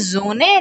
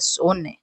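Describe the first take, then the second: First: The word begins with a buzzing z sound. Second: The word begins with a hissing s sound. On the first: The speaker calls it right. "बोलोगे जोने" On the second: The speaker calls it wrong. "लिखोगे सोने"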